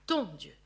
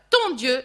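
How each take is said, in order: First: "ton" repeated lower, pointing it out; teacher repeating the phrase to point it out. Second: "ton" hit loud, as the telling word; teacher marks Jacob's telling word "ton"; stress on ton. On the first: Shown as a demonstration. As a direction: drop low and underline "ton Dieu". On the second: Retold or imitated. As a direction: lean on "ton" in "ton Dieu". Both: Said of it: "et ça c'est fort".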